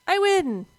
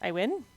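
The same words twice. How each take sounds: First: High, loud victory exclamation; triumphant cry. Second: "win" lifting into a doubtful question; questioning rise. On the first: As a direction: declare the win, high and loud, falling at the end. Realises the boss is beaten. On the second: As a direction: ask it unsure, pitch jumping up on "win". Unsure the boss is beaten. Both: Real, not acted.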